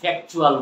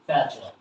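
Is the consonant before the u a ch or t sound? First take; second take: t; ch. First: The consonant before the u is a t sound. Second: The consonant before the u is a ch sound. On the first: The speaker calls it wrong. "আমরা বাঙালিরা কি উচ্চারণ করি ফ্যাকচুয়াল বলি" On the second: The speaker calls it right. "আমরা কি বলবো ফ্যাকচুয়াল"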